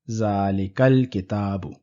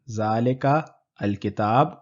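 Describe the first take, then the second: First: The two words run smoothly together. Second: A short break separates the two words. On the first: The speaker calls it right. "we have Zalikal Kitabu" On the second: The speaker calls it wrong. "Rather than"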